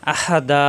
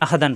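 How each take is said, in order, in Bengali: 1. শব্দটি টানা 'a' স্বর দিয়ে শেষ হয়। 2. শব্দটি 'n' ধ্বনি দিয়ে শেষ হয়। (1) "এক জবর মনে মনে বাদ দিয়ে দিতে হবে, এক আলিফ টানতে হবে" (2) "আহাদান পড়া যাবে না থামলে"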